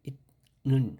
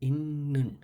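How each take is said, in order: First: The first syllable ends with a t sound. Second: The first syllable ends with an n sound. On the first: The speaker calls it wrong. "এখানে উচ্চারণ হওয়ার কথা ছিল ইত নুন" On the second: The speaker calls it right. "কিন্তু এখানে উচ্চারণ হবে ইন্নুন"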